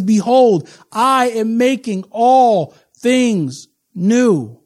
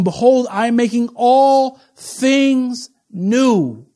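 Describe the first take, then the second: First: "Behold" louder, "all things new" drawn out very slowly; slower, louder proclamation. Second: Very slow, stretched "all things new"; slow proclamation. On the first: Preacher repeating the verse for emphasis, louder and slower. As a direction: repeat it even slower and weightier. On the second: Preacher reading scripture to congregation, slow grand proclamation. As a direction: proclaim it slowly, leaning on "all". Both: Shown as a demonstration. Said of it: "I'm gonna say that again".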